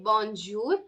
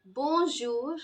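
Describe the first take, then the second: First: "bonjour" with a hard dj and a sounded n; anglicized bonjour. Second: "Bonjour" with soft zh as in measure; careful French "Bonjour", J softened to zh. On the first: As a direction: say "bonjour" the wrong way, J as in jam. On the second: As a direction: model "Bonjour" with nasal bon, no n touched. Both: Shown as a demonstration. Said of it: "Please do not say bonjour".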